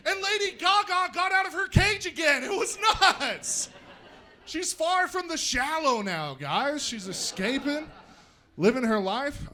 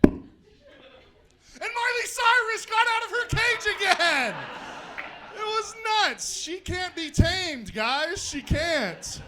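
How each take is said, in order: First: Excited zoo report. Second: Shouted higher, excited zoo report; bigger second take. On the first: First take of the [name] line. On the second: Retelling the zoo joke, higher and louder. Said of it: "Okay, take two". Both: Acted.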